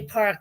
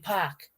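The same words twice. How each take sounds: First: It is said in a standard American accent. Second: It is said in a Boston accent. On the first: "They don't say park" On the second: "they say park"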